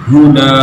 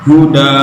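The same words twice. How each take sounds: No difference in how they are said.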